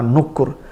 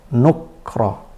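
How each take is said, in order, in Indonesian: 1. Ada vokal u di antara k dan r. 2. Huruf k langsung bertemu dengan r. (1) "kafnya berharkat dhammah" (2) "dengan sukun huruf kaf"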